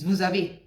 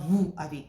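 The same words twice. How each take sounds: First: A z sound links the two words. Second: The two words are separate, unlinked. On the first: The speaker calls it right. "there is what they call a liaison" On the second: The speaker calls it wrong.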